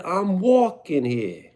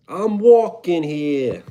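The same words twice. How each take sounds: First: Slow, high New York accent, leaning on "walking". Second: Slow, drawn-out New York accent on walking. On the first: Streamer repeats New York accent for chat. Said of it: "I said". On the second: Streamer doing New York accent for a chat request. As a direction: hit the classic New York "I'm walking here". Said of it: "Yes, New York accent". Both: Shown as a demonstration.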